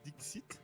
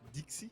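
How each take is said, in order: First: The final T sound is pronounced. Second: The final T sound is left silent. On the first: The speaker calls it right. "Il y a un T quand même" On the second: The speaker calls it wrong. "il y a quelqu'un qui appelle Dixit, Dixie"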